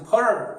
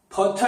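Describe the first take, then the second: First: The middle consonant is a soft r-like flap. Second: The middle consonant is a clear t sound.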